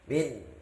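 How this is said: The nasal hum is blocked with the nose closed. "itu kalau ditutup min, nah nggak bisa dengungnya"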